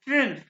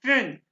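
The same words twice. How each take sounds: First: The vowel is a rounded ü sound. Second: The vowel is a rounded ü sound.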